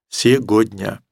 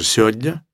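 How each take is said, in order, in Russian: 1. Произносится каждый звук слова. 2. Больше звуков слова пропадает. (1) "который бы произнес все это слово целиком" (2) "может быть, даже сегодня"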